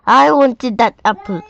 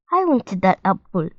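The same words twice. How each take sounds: First: Loud, higher-pitched protest; angry shout. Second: Understated complaint at near-normal volume; mild indignant shout. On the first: Marvin to Molly, who ate his apple, angry shout. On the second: Marvin to Molly who ate his apple, mildly indignant. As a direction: object with a touch of anger, held back. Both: A narrator's reading. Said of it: "shouted Marvin".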